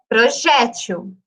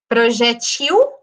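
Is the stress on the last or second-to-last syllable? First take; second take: second-to-last; last. First: The stress is on the second-to-last syllable. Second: The stress is on the last syllable. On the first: This is how everyone says it today. "para mim é projétil" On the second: This is the word's original form. "originalmente a palavra seria uma oxítona"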